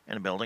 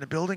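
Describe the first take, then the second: First: It stays in the put-on dispatcher voice. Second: It drops out of the put-on dispatcher voice. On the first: The speaker calls it right. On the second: The speaker calls it wrong.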